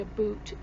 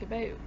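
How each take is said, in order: First: The second syllable sounds like the word 'boot'. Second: The vowel is the speaker's own Canadian 'ou' sound. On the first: The speaker calls it wrong. "we don't say a boot" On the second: The speaker calls it right. "which there you go"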